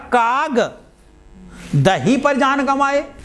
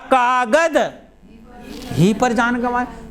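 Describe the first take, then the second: First: The break comes after kag. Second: The break comes after kagad.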